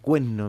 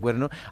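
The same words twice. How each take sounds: First: The r sound is dropped and the n doubled. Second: The r sound before the n is pronounced. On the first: It is a less socially accepted regional form. "cuando se dice cuerno en vez de cuerno, parece que está menos aceptado" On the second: It is the accepted standard form. "en vez de cuerno"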